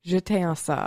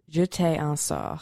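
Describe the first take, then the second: First: It is said a bit faster. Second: It is said at normal speed.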